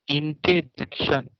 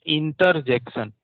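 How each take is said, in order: First: इंटरजेक्शन without the r, "इंटेजेक्शन", slow; correct pronunciation. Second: इंटरजेक्शन with a clear r, "इंटर-जेक्शन"; wrong pronunciation. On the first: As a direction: drop the r in इंटरजेक्शन, say it slowly. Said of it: "ऐसा आपको pronounce करना होगा". (इंटरजेक्शन बिना र के, धीरे से) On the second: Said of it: "ये नहीं बोलना है इंटरजेक्शन". (इंटरजेक्शन को र के साथ बोलना, गलत तरीका) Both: Shown as a demonstration.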